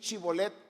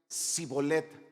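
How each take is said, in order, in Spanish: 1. La palabra empieza con un sonido 'sh'. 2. La palabra empieza con una 's' sencilla. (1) "di chibolet" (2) "lo pronunciaban mal"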